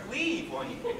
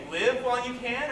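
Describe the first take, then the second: First: "Leave" said with a long stretched ee, like leaf. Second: "Live" said with a short clipped i, like give. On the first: Fan weighing the other reading, "Leave" with a long ee. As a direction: make "Leave" the verb leave, long vowel, amused rising question. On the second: Fan weighing the lyric, "Live" with a short i. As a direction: make "Live" the verb live, short vowel, questioning lift at the end. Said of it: "Does she say". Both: Shown as a demonstration.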